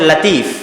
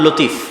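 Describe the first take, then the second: First: The first vowel is an open 'a' sound. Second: The first vowel is a short 'o' sound. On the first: The speaker calls it right. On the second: The speaker calls it wrong.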